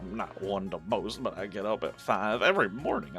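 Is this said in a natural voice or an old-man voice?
old-man voice. It is said in a put-on old-man voice. The speaker calls it right. "where is my old man voice?"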